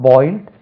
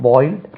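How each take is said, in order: The two takes are said the same way.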